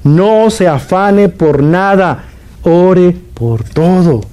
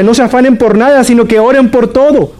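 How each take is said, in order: First: Very slow, every word spaced out; slow repeat. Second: Raised, forceful delivery with the whole line pushed high; emphatic preaching. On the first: Preacher repeating for listeners who missed it, very slow and deliberate. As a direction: repeat it slowly so they finally hear. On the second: Preacher urging the congregation not to worry, emphatic and raised. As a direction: proclaim it boldly to the congregation. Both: Shown as a demonstration. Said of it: "lo repito porque usted no me escuchó bien".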